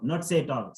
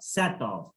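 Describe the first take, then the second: First: "set off" with a closed, tight vowel; wrong set off. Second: "set off" with an open "sæt" vowel, lips open; correct set off. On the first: Teacher mimicking the students' closed vowel. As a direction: show the frozen-lip "set off". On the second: Teacher modelling the open vowel. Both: Shown as a demonstration.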